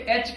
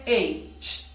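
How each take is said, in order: First: ایچ as a short, quick "ech"; wrong local H. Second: ایچ as long "ey" plus a crisp released "ch"; correct English H. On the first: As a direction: say ایچ with a short vowel and no glide. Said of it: "but this is wrong". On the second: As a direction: draw out ایچ as "eyy-ch". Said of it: "یہاں پہ sound ہے ایچ". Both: Shown as a demonstration.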